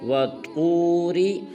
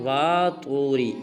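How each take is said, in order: First: The first vowel is kept short. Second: The first vowel is drawn out long. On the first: The speaker calls it right. "वाव को लंबा नहीं करना" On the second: The speaker calls it wrong. "ये बिल्कुल गलत है। वाव को लंबा नहीं करना"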